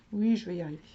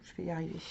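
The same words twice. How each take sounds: First: Said in the usual way. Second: Softly muttered je vais y arriver under her breath; barely voiced self-encouragement while searching; quiet mutter to herself. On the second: Real, not acted. To herself while looking for the page, a quiet mutter.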